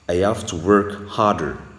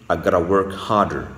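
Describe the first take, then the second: First: The words "have to" are said in full. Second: The words are reduced to "gotta". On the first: "Techniquement, c'est I have to" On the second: "À l'américaine"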